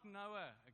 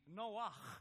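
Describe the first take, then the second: First: The name ends in a plain vowel sound. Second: The name ends in a throaty ch sound. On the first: The speaker calls it wrong. "Noah is not Noah" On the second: The speaker calls it right. "It's actually Noach. that's how the Hebrews pronounced it"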